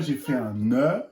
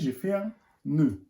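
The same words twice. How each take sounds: First: The vowel in nœud is open. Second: The vowel in nœud is closed. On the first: The speaker calls it wrong. "On ne dit pas" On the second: The speaker calls it right. "on dit"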